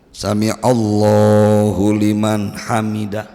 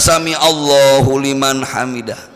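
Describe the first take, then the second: First: It is said calmly, with a full stop. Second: It is said hurriedly, without any stop. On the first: The prayer movement is done with proper stillness. The speaker calls it right. "harus berhenti" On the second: The prayer is rushed without stillness. The speaker calls it wrong.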